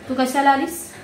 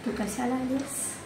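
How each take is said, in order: First: It is said as a genuine question. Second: It is said in a calm tone.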